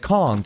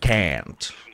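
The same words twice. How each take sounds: First: The word is said with a British pronunciation. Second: The word is said with a non-British pronunciation. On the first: This is how the speaker's community says it. "We just get taught the British curriculum. That's why we say can't" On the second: This is how others say it. "instead of can't"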